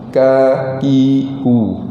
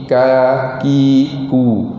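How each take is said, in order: The two takes are said the same way.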